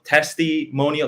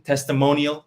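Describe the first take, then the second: First: "testimonial" slowly, with a clear "testee" before "monial"; TESTI picked out. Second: Said in the usual way. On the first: Shown as a demonstration. Explaining the pun to a listener, "testimonial" slowly split as testee-monial.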